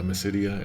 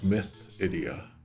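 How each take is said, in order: First: The middle consonant is an S sound. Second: The middle consonant is a TH sound. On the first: This is the established name. "the legacy term is now Mysidia" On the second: The name contains the word myth. "the S H is a T H, in which case it becomes myth idia"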